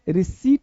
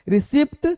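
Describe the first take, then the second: First: The p is silent, giving 'ri-seet'. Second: The p sound is pronounced before the t. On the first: The speaker calls it right. "रिसीट बोलते हैं" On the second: The speaker calls it wrong. "रिसिप्ट गलत है"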